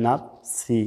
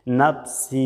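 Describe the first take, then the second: First: নাফসি with a clipped short a; wrong short নাফসি; short vowel nafsi. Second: নাফসি with the long a drawn out; নাফসি said with a held a; long vowel nafsi. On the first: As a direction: say নাফসি without the stretch. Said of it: "আর যদি টান না দেন". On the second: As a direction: stretch the a in নাফসি. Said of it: "একালিপ টান দিতে হবে". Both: Shown as a demonstration.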